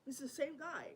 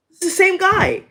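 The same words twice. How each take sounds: First: Said in the usual way. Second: Much higher and louder, stress on same; emphatic repeat. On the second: Real, not acted. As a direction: bang out "same" high and loud.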